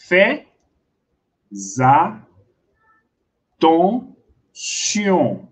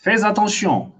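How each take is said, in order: First: "fais attention" very slowly as fais, za, ton, sion, with long gaps; syllable by syllable. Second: Said in the usual way. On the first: Shown as a demonstration. Teacher showing how to read it, "fais attention" syllable by syllable. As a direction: break "fais attention" into separate syllables with a linking Z. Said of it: "você vai ler assim". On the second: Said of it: "Você tem que falar assim".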